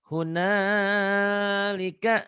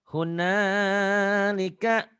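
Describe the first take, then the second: Both takes have the same delivery.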